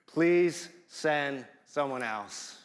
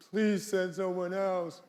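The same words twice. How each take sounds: First: Slow, polite, measured request; polite plea. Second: Put-on higher, whiny teenage plea; teenage whine. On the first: Retold or imitated. Moses politely asking God, slow and courteous. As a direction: ask courteously, slow and restrained. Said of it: "he says it so politely". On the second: Moses as a teenager whining to God, mock whine. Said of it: "one big whine".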